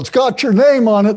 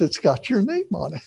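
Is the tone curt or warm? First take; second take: curt; warm. First: It is said in a curt, impatient tone. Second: It is said in a warm, gentle tone. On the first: The answer should be obvious. The speaker calls it wrong. "She doesn't say it like that" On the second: The gift is given with love. The speaker calls it right. "She says, honey"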